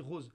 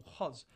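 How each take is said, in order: First: "rose" with a closed Parisian O; standard closed O. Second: "rose" with an open southern O; Marseille open O. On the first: Debater showing how Marseille speaks now, "rose" with closed O. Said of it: "mais là, on dit rose". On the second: Debater showing how Marseille used to speak, "rose" with open O. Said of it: "avant, on disait beaucoup". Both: Shown as a demonstration.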